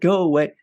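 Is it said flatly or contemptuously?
flatly. It is said flatly, without much feeling.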